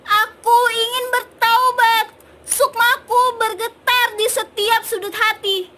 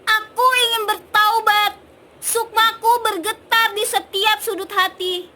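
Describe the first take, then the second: First: It sounds angry and loud. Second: The same.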